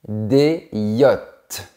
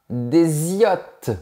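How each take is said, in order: First: The words are said without a linking consonant. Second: A linking consonant joins the words. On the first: The speaker calls it right. "On dit" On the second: The speaker calls it wrong. "On ne dit pas"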